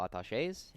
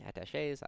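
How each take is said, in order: First: Said in the usual way. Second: "attaches" said in French, as a-ta-SHAY with a rising end; "attaches" with French vowels and a rising end; French accent. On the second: Shown as a demonstration. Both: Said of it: "I just said I wasn't gonna do a French accent".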